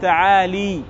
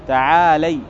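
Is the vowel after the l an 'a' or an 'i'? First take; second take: i; a. First: The l is followed by an i vowel. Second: The l is followed by an a vowel. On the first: The speaker calls it wrong. "ما تقول تعالي" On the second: The speaker calls it right. "تلازم الفتح"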